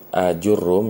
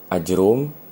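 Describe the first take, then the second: First: The opening vowel is drawn out long. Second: The opening vowel is kept short.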